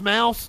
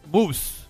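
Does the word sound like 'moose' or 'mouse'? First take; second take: mouse; moose. First: The vowel sounds like the one in 'house'. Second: The vowel sounds like the one in 'goose'. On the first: "It's pronounced Mouse?" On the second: "I didn't know if it had like a German like Moose"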